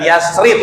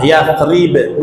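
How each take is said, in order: First: "Yasrib" with a plain s, as Yas-rip; "Yasrib" without the Arabic th or bouncing b; mispronunciation demo. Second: "Yasrib" as Yath-rib, with a clearly released final b; correct Arabic pronunciation. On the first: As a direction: show the mistaken "Yasrib", hissed s and unreleased ending. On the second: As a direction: teach "Yasrib" with Arabic th and a bouncing b. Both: Shown as a demonstration. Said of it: "bukan Yasrib".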